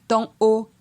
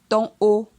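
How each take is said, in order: The two takes are said the same way.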